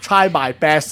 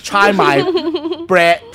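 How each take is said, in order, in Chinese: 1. 发音很标准。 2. 带有较重的粤式口音。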